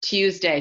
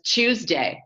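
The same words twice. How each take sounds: First: "Tuesday" begun with a clean T; T-sound Tuesday. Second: "Tuesday" begun with a CH sound, drawn out; mother's Tuesday. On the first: Shown as a demonstration. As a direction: say "Tuesday" as "tooz-day". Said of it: "She doesn't say Tuesday". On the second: Retold or imitated. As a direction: say "Tuesday" slowly as "chooz-day". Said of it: "She says Tuesday".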